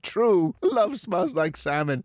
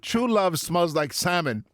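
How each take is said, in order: First: There is a pause right after 'true'. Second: It runs straight on with no pause after 'true'. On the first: Someone agrees, then says love smells like salmon. "You read it with a comma there" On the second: True love is what smells like salmon. "the script says true love true love smells like salmon"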